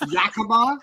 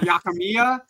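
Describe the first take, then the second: First: The name is said as Ya-ki-ma. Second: The name is said as Ya-ki-mi-ya. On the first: The speaker calls it right. "It's Yakima" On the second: The speaker calls it wrong. "not Yakimiya"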